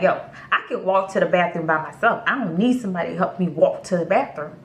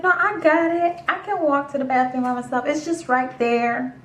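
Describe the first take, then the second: First: Quick, matter-of-fact grumble in usual pitch; blunt inner retort. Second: High, placating brush-off. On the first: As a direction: rattle off what you wouldn't dare say aloud. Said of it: "but in my head, I'm like". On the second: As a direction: pitch it up to decline nicely. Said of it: "not crazy enough to say it out loud". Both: Retold or imitated.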